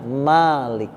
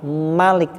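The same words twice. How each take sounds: First: The first vowel is said long. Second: The first vowel is said short. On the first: It means the one who owns. "panjang Malik" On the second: It means king. "Malik raja"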